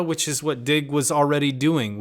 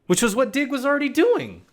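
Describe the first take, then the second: First: Said in the usual way. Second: High, incredulous emphasis; high-pitched exasperation. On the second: Real, not acted. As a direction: pitch jumps way up, held high. Repeats it in exasperated realization.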